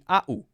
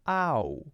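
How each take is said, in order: First: The vowel is split into two separate sounds. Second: The vowel glides smoothly as one continuous sound. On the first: The speaker calls it wrong. "It can't be ah, oo" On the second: The speaker calls it right. "It's got to be ow. It's got to be smooth"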